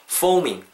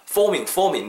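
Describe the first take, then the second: First: "foaming" as a natural fo-oo-ming glide; natural pronunciation. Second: "foaming" spelled out too honestly; over-pronounce "foaming" exactly as written; too-literal pronunciation. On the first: Teacher correcting learners, "foaming" said naturally, not literally. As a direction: ease "foaming" out with a slight oo inside. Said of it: "정직하게 발음하지 마시고". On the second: Teacher showing what to avoid, "foaming" said too literally. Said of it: "너무 이렇게 정직하게". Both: Shown as a demonstration.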